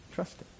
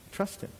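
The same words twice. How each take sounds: First: Whispered plea. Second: Soft plea. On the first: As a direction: whisper Trust him with no voice. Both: Real, not acted.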